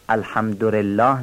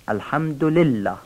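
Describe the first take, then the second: First: الحمدلله with the lam of لله turned into an r; mispronounced lam. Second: الحمدلله with a clean l after the dal; correct clear lam. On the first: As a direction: say الحمدلله wrongly, "alhamdu-rellah". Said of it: "لام لله رو تبدیل به ر بکنن". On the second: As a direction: say "alhamdu-lillah" for الحمدلله, the l kept. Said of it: "این لام تبدیل به ر نشه". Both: Shown as a demonstration.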